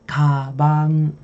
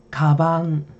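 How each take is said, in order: No difference in how they are said.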